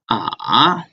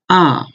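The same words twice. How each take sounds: First: The pitch falls and then rises again. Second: The pitch falls sharply from high to low. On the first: "The third one is ah" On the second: "The fourth one is ah"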